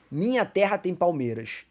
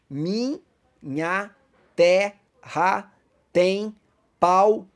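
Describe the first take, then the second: First: Said in the usual way. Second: "Minha terra tem palmeiras" split into separate beats, each word set apart with pauses and rising louder; counting syllables. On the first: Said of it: "Observa aqui essa poesia". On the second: Shown as a demonstration. Teacher showing the class how to count syllables, word by word. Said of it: "na contagem de sílabas".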